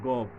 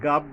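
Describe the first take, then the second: First: The syllable is said heavy and thick. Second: The syllable is said thin and light. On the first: The speaker calls it right. "মোটা করে পড়তে হবে এটা" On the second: The speaker calls it wrong. "এই গাব বলবো না আমরা"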